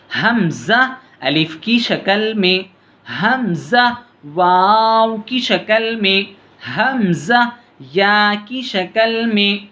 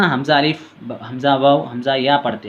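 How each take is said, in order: First: हमज़ा अलिफ की शक्ल में said slowly and deliberately, word by word; correct reading. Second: हमज़ा अलिफ said as quick plain letter names, the wrong way; wrong reading. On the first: Teacher showing pupils the right slow way to read हमज़ा. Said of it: "ऐसे पढ़ना है". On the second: Teacher showing pupils the wrong quick way to read हमज़ा. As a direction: rattle off हमज़ा वाव as bare names. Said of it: "ऐसा नहीं पढ़ना". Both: Shown as a demonstration.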